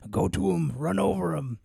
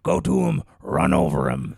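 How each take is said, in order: First: It is said in his normal voice. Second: It is said in a gritty Mickey voice.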